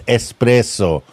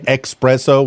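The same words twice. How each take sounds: First: The word begins with an 'es' sound. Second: The word begins with an 'ex' sound. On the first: The speaker calls it right. "I have to say it properly" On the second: The speaker calls it wrong. "with an X"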